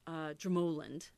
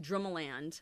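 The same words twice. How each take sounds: First: The final syllable is weak and reduced. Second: The final syllable is said fully, like land. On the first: The speaker calls it right. "It's Drumoland" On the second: The speaker calls it wrong. "I want to say Drumoland, but it's not"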